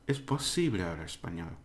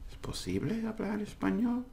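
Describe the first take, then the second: First: It is said as a confident, firm statement. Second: It is said as an unsure, questioning inquiry.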